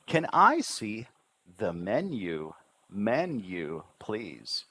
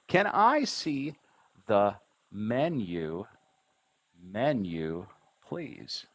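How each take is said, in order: First: "menu" with the pitch swooping up and down; lively intonation. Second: "Can I see the menu, menu, please" in slow, separated syllables; "menu" drawn out as two distinct syllables, "men-yu". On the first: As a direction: bring "Can I see the menu, menu, please" to life with rolling intonation. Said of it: "need to bring it to life". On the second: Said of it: "those are the syllable sounds". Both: Shown as a demonstration.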